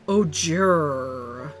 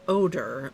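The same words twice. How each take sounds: First: The word is said with an exaggerated ending sound. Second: The word is said plainly, in the ordinary way. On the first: The speaker calls it right. "It has a U in it. You have to pronounce it properly" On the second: The speaker calls it wrong. "not just odor"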